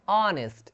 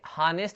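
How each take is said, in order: First: The word begins with a vowel, no h. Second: The word begins with an h sound. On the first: The speaker calls it right. "इसको क्या पढ़ते हैं, ऑनेस्ट" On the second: The speaker calls it wrong. "यहाँ पे हानेस्ट नहीं पढ़ते"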